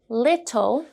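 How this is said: The middle t is a clear t sound. "In British English, the t sound here mostly stays the same"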